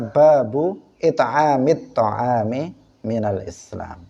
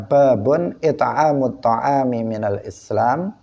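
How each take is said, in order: First: The first word ends in a vowel, no n. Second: The first word ends with a nasal n sound. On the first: "Kalau dibaca babu" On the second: "kalau ditanwin"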